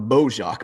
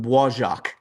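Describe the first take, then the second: First: The name is said with a casual Midwestern pronunciation. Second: The name is said with careful, non-American pronunciation. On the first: "I called it the Bojack because I'm a, a Midwestern redneck" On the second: "I got to say this right"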